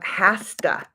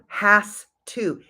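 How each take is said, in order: First: 'Has to' is blended into one reduced word. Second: Each word of 'has to' is said separately. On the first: "comes from" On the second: "comes from"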